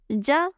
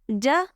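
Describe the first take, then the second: First: The j is made with the tongue middle. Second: The same.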